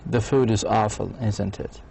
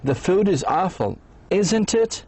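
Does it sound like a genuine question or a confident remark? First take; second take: confident remark; genuine question. First: It sounds like a confident, certain remark. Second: It sounds like a genuine, uncertain question.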